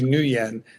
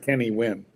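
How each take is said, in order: First: The surname is not said like 'win'. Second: The surname sounds just like 'win'. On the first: Listeners will recognize the name. "we say Kenny Nguyen so that people know what we're talking about" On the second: Nobody would know who was meant. "We don't say Kenny Win"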